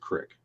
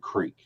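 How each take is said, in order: First: It is said in a deep East Texas accent. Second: It is said in a standard, non-Texan accent. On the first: "if you're like from deep East Texas, it's a crick" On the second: "instead of a creek"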